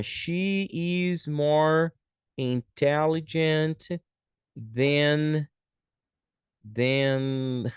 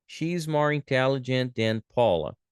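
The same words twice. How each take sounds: First: Very slow, stretched words with pauses; slow dictation. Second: Said in the usual way. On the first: Shown as a demonstration. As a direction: dictate it word by word. Teacher writing out example sentence.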